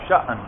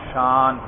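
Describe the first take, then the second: First: The vowel is cut by a sharp glottal catch. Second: The vowel flows smoothly with no glottal catch. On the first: "جھٹکے والی" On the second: "کوئی جھٹکا ادائیگی میں ہوا نہیں"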